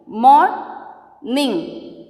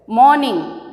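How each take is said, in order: First: "Morning" drawn out as mor, ning; syllable by syllable. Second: Said in the usual way. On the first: Shown as a demonstration. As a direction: stretch "mor", pause, then "ning" in "Morning". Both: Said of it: "Now I am splitting the words".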